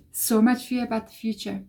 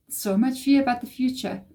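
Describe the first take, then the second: No difference in how they are said.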